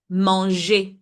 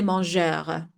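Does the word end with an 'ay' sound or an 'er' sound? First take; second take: ay; er. First: The word ends with an 'ay' sound. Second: The word ends with an 'er' sound. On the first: The speaker calls it right. "So the er has the sound of e" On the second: The speaker calls it wrong. "I don't say mangeur"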